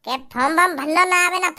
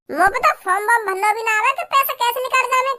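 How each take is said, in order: First: Lower, sing-song mockery of form warm; lower-pitched teasing imitation of the whining; mocking echo. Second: Said in the usual way. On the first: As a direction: parrot his excuse back to mock him. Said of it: "mocking echo of brother".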